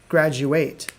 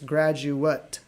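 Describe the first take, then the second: First: The last syllable sounds like 'ate'. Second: The last syllable sounds like 'ut'. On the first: It is the verb for finishing a degree. "This is the the verb of it. ... Think about the verb ate" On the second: It is a person who has earned a degree. "it's graduate. Ut"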